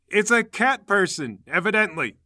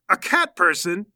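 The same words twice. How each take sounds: First: Matter-of-fact answer. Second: Slow, loud questioning rise; incredulous question. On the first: Associate answers the yelling fighter, matter-of-fact. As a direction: state the obvious with emphasis. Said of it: "McGoffel says". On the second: Onlooker learns who the fighter is, incredulous question. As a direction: echo it back in disbelief. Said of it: "McGoffel goes". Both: Acted.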